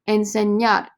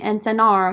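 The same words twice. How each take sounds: First: The middle consonant is an ny sound. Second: The middle consonant is a plain n sound. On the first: The speaker calls it right. "Remember the ñe" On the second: The speaker calls it wrong. "Don't say enseñar"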